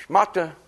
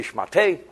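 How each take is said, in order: First: Shmata said with a final ah, the American-Yiddish way; plain ending on "shmata". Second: "shmate" ending in an eh sound, the French way. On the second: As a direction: say "shmate" with the final vowel as eh. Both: Shown as a demonstration. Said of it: "In France, they say shmate".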